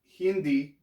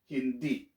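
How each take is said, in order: First: The word ends in an 'ee' vowel. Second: The word ends in a short, cut-off 'eh' vowel. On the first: The speaker calls it wrong. "It's not Hindi" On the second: The speaker calls it right. "I said E, not I ... So you have to cut it abruptly"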